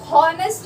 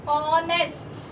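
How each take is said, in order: First: हॉनेस्ट with a clear h at the start; wrong sounded h. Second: ऑनेस्ट said starting on the vowel, no h; silent h. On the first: Teacher to students, wrong h-sounded example. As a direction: voice the h in हॉनेस्ट as the mistake. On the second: Teacher to students, correct silent-h version. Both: Shown as a demonstration. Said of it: "हॉनेस्ट नहीं बोलते".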